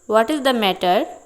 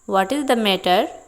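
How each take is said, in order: The two takes are said the same way.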